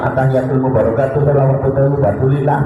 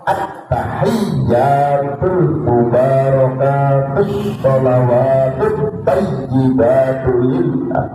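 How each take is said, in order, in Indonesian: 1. Huruf yang bertasydid dibaca pendek. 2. Huruf yang bertasydid dibaca panjang. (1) "misalnya nggak ada tasdidnya" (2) "Tasdidnya banyak"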